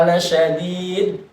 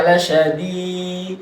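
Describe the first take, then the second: First: La syadid pushed onto syadid; la syadid with the tasydid on syadid; wrong way. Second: La syadid, slowly, the a of la held; la syadid with a long la; right way. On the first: (la syadid salah, ditekan di syadid) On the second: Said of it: "bukan la syadid". (la syadid dengan la dipanjangkan) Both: Shown as a demonstration.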